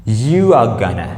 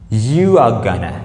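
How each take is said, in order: First: Going to is reduced to one word, gonna. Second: The same.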